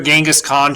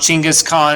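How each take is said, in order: First: The name begins with a soft j sound. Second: The name begins with a ch sound. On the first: This is the usual Western form of the name. "Most commonly in the West, we call him Genghis Khan" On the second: This is another common way to say the name. "as he's often pronounced as well"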